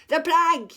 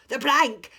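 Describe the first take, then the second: First: Loud, high "The plank!" with more push; the second pirate joins the yell; yelling louder. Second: Loud, higher "The plank!"; yelling. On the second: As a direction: pirates baying for the plank. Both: A narrator's reading. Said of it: "yelled Ben Buckle and Percy Patch".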